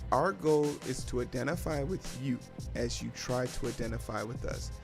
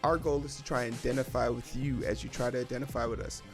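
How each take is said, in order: First: It is said slowly. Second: It is said at normal speed.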